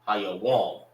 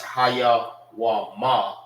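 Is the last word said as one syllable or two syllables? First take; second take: one syllable; two syllables. First: The last word is joined into one syllable. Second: The last word is split into two separate syllables. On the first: The speaker calls it right. "you say it together" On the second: The speaker calls it wrong. "not Haya Wama"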